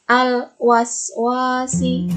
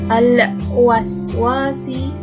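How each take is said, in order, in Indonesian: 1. L dibaca jelas dan tetap. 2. L dibaca dengan memantul. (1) "Jadi dibacanya harus jelas" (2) "Itu salah karena lamnya tidak boleh memantul"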